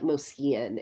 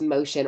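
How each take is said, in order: First: The middle of the name has an 'sk' sound. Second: The middle of the name has a 'sh' sound. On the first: The speaker calls it wrong. "it looks like Moskian" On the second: The speaker calls it right. "it's pronounced motion, or at least that's how David pronounces it"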